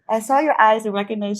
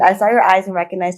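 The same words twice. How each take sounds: First: It is spoken in a put-on British accent. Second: It is spoken in her ordinary accent. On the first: "I want to do like a British accent with it" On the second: "I'm just gonna do regular"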